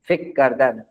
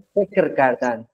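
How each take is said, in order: First: The r at the end of fekr is dropped. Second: The r at the end of fekr is pronounced.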